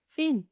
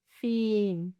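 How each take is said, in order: First: Said in the usual way. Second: FIN with a long, held "ee"; slow, sustained "fin" for the listener; drawn-out demonstration. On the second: Shown as a demonstration. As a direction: stretch the vowel in "fin". Word stretched for listening practice.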